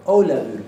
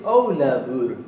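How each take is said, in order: First: Ólafur loud, the F said as a short B. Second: Ólafur slow, the F said like a soft V; Ólafur with a near-V sound for the F; Icelandic F as soft V. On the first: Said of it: "como una B corta". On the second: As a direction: drag out Ólafur, with the f turned into a short b. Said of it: "La F la pronuncia casi como si fuera una V". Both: Shown as a demonstration.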